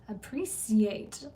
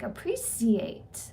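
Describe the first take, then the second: First: It is said in the speaker's usual plain accent. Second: It is said imitating an English accent.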